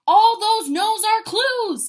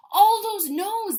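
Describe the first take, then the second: First: Slow, loud, stressed ALL; emphatic. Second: Slow, louder repeat stressing ALL; emphatic repeat. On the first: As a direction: lean hard on every word, slow and loud. Emphatic motivational point. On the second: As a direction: hammer the phrase home again. Repeats the phrase. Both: Real, not acted.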